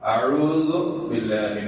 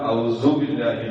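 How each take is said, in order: First: Both the ain and dh sounds are pronounced. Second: A z sound replaces the dh sound. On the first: The speaker calls it right. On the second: The speaker calls it wrong.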